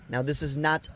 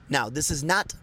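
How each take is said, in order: Both takes have the same delivery.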